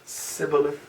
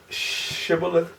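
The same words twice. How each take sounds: First: SIBBOLETH opening on a plain "s"; s pronunciation. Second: SHIBBOLETH with a drawn-out opening "sh"; sh pronunciation. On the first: Teacher contrasting Hebrew dialects, sibboleth starting on s. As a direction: say sibboleth with s in place of sh. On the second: Teacher contrasting Hebrew dialects, shibboleth with a long sh. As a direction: say shibboleth slowly, starting on a long sh. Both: Shown as a demonstration. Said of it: "different dialects of the Hebrew".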